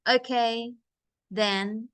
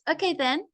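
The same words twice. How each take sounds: First: There is a pause between the two words. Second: The two words run together without a pause. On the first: The speaker calls it wrong. "It's not okay, then. There's no comma. So there's no break" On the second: The speaker calls it right. "So it's okay, then. Then you take a break"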